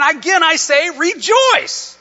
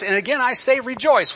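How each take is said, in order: First: AGAIN I SAY REJOICE very high, loud and slow; emphatic repeat. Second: AGAIN I SAY REJOICE high but only moderately loud; high-pitched verse quote without drawing out "rejoice"; raised preaching. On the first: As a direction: proclaim "again, I say rejoice", drawing it out. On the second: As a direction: say "again, I say rejoice" high and moving along briskly. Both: Acted. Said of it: "he was so emphatic".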